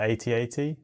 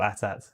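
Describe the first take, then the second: First: It is said as separate letter names. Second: It is said as two short words. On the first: "do you say eighty eighty" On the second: "or at at?"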